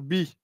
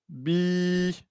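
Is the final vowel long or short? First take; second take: short; long. First: The final vowel is short. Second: The final vowel is lengthened. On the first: The speaker calls it wrong. "on va pas dire bi" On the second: The speaker calls it right. "on va dire bi"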